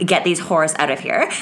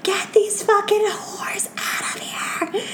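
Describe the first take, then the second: First: Said in the usual way. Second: High, slow whispered mockery; whispered mocking mimicry. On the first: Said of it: "in case you didn't hear". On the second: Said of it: "my weird whisper voice".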